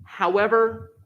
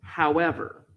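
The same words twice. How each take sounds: First: "However" punched much higher, as if in capitals. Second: "However" said calmly and level; an easy, even "However". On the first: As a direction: hit "However" high and hard, all caps. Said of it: "saying however with all capitals". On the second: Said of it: "I say however very calmly". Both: Shown as a demonstration.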